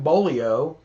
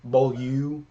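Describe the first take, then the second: First: The name ends with an 'oh' sound. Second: The name ends with an 'oo' sound. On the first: It is the name as a friend said it. The speaker calls it wrong. "I've just always pronounced it Bolio" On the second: It is the brand's correct pronunciation. The speaker calls it right. "Now I pronounce it Bolu because I think that's the correct"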